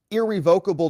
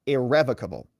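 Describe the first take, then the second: First: Irrevocable as ir-ree-VOKE-uh-bul; lawyer's pronunciation. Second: Irrevocable as ir-REV-uh-kuh-bul; judge's pronunciation. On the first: Lawyer asking about the trust, irrevocable said ir-ree-VOKE-able. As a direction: stress VOKE in irrevocable, long O. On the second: Judge correcting the lawyer, irrevocable said ir-REV-ocable. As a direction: stress REV in irrevocable, short E. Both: Retold or imitated. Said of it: "I think it's pronounced irrevocable".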